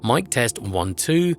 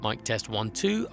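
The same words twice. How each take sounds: First: The low frequencies are cut by a filter. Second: Both lowered level and cut low frequencies. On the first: "with the eighty hertz high pass filter engaged" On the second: "with the minus ten D B pad and the eighty hertz high pass filter"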